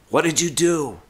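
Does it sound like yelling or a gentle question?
yelling. It sounds like near yelling, loud and upset.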